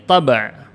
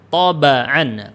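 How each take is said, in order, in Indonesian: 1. Huruf b langsung diikuti konsonan berikutnya. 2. Huruf b diikuti vokal a pendek. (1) "Kalau yang disukun ini" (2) "kalau yang di fathah"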